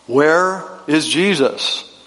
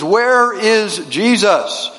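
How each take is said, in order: First: It is asked more sternly and louder. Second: It is asked sternly at a very loud volume.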